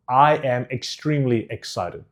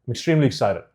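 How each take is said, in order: First: "I am extremely excited" in distinct, unhurried words; clearly enunciated. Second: "I'm extremely excited" quick and blurred into one; mixed together. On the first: Coach contrasting clarity, "I am extremely excited" fully enunciated. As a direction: sound out every syllable of "I am extremely excited". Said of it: "hear the difference in the clarity". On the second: Coach contrasting clarity, "I'm extremely excited" run together. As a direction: swallow the start of "I'm extremely excited", syllables merged. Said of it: "Just mix them together".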